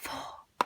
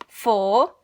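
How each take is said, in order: First: It is whispered, a little faster. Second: It is said in a normal full voice.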